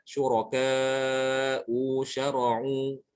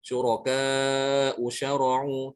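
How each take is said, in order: First: Usyara'u stretched very slowly; drawn-out wrong reading. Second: Syuraka usyara'u read with a short ka; short vowel. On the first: Teacher shows the forbidden long reading, very slow. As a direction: drag out syuraka usyara'u as the mistake. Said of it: "Tidak boleh dibaca". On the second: Teacher models the correct short reading. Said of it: "Ini dibaca pendek". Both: Shown as a demonstration.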